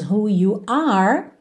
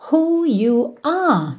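First: The final R is clearly curled. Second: The final R is dropped, not curled. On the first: "ao invés de termos" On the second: "de novo sem enrolar o R"

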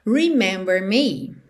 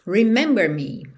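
First: It is said as a flat statement. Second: It is said as a flat statement.

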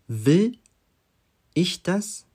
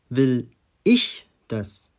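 First: The stress is on "will". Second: The stress is on "ich".

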